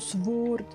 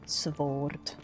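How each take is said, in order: First: The word is said without a W sound. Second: The word is said with a W sound.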